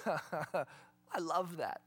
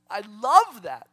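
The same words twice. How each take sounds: First: Quiet, slow, laughing under the breath; soft chuckle. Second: Much louder, emphatic; loud delight. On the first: Preacher delighting in a definition, soft laughing. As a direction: savour it with a little laugh. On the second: Preacher repeating his favourite definition, loud delight. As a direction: proclaim "love" out loud. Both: Real, not acted.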